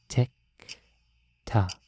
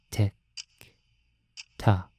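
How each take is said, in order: Both takes have the same delivery.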